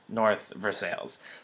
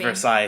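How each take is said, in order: First: It is said the local Pittsburgh way. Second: It is said the standard French-like way.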